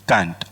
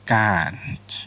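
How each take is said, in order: First: It is said in an Indian accent. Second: It is said in an American accent.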